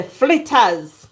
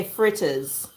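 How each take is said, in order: First: Flitters with an L, Jamaican patois style, slow. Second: Fritters with a clear R, standard English. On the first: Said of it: "that's the patois accent". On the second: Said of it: "if you wanna do standard English". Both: Shown as a demonstration.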